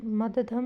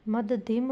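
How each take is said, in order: First: मध्यधम ending in -dham with a short a; wrong pronunciation. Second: मध्यधिम ending in -dhim with a short i; correct pronunciation. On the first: Teacher showing pupils the wrong ending. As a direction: say मध्यधम with a plain a in the last syllable. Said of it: "मध्यधम नहीं होगा". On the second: Teacher giving pupils the correct ending. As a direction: end मध्यधिम on a clear short i. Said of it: "मध्यधिम होगा". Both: Shown as a demonstration.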